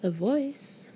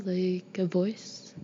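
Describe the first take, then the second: First: Higher, rising puzzled echo. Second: Slow, hesitant suggestion; tentative. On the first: Mother questioning her daughter's odd claim, puzzled. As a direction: query it back, baffled. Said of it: "Mom looks puzzled". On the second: Daughter asking mother about a sound, tentative. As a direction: draw it out uncertainly. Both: A narrator's reading.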